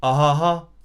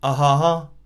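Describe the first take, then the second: No difference in how they are said.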